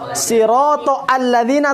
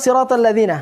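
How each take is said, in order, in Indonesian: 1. Huruf 'a' pada alladzina dibaca terpisah. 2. Huruf 'a' pada alladzina dihilangkan dan disambung.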